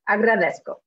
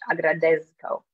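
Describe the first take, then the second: First: The middle consonant is a hissing s. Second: The middle consonant is a buzzing z. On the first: The speaker calls it right. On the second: The speaker calls it wrong.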